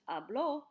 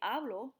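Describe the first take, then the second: First: The stress is on the last syllable. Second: The stress is on the first syllable. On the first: He spoke. "the difference between I speak and he spoke is just a little accent" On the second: I speak. "Without an accent is I speak"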